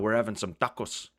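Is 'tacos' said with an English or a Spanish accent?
Spanish. Tacos is said with an exaggerated Spanish accent. "They're like"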